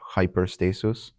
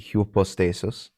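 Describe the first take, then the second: First: The first vowel sounds like 'eye'. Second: The first vowel sounds like 'oo'. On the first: "Some do pronounce it like the Y in hyper" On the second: "Upsilon, pronounced like usual"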